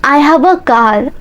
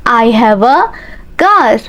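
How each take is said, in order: First: Said in the usual way. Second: Slow chunked drill. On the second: Shown as a demonstration. Teacher drilling learners, slow chunked repeat. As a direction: break it up so students follow.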